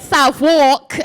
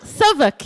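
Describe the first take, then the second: First: The first syllable sounds like the word south. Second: The first syllable is reduced, not like south. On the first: The speaker calls it wrong. "I kept going South. So, I've been saying" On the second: The speaker calls it right. "so Southwark, yeah"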